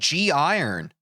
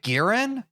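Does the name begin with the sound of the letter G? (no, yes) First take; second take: yes; no. First: The name begins with the letter name 'gee'. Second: The name begins with a plain 'g' sound. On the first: This is how the speaker has been saying it. "I've been saying G Iron. Like G. I run" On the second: This is how other people say it. "People pronounce it Garen?"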